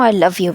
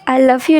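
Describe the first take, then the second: First: It is said flatly, without feeling. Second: It is said warmly, with feeling.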